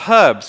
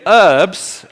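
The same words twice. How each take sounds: First: The h at the start is pronounced. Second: The h at the start is silent. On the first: "we say herbs, because it's got a bleeping H in it" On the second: "You say"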